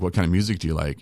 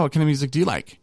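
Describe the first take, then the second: First: Said in the usual way. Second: Mock flustered date voice; flustered echo. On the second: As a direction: toss "What kind of music do you like?" back in a panic. She echoes the question back.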